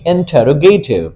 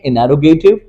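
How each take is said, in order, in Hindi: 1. n के बाद का t उच्चारित होता है। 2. n के बाद का t मौन होता है। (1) "ब्रिटिश में बोलेंगे" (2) "अमेरिकन में बोलेंगे"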